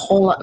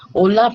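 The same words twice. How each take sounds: First: "hola" imitated with an English accent. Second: Said in the usual way. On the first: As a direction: say "hola" like an English speaker trying Spanish. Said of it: "como que se escucha su acento". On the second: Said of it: "no se le escucha así como nosotros".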